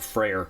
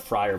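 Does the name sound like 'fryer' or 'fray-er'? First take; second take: fray-er; fryer. First: The name sounds like 'fray-er'. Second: The name sounds like the word 'fryer'. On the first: The speaker calls it right. "but the Freyr" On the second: The speaker calls it wrong. "not the Fryer"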